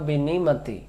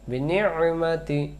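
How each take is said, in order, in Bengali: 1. -mati-র আগের গলার ব্যঞ্জনটি বাদ দেওয়া হয়। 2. -mati-র আগের গলার ব্যঞ্জনটি স্পষ্ট করে চেপে পড়া হয়। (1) "আপনি এই আইন অক্ষরটা বাদ দিয়ে" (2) "মধ্য থেকে একটু চেপে পড়তে হয়"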